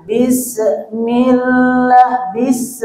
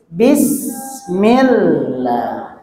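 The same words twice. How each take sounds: First: Bismillah with a hard clipped bis; wrong pronunciation. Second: Bismillah slowly with a long hissing s; correct pronunciation. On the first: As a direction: demo the wrong bis with a qalqalah bounce. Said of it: "itu salah". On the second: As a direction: draw out bismillah letting the s hiss. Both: Shown as a demonstration.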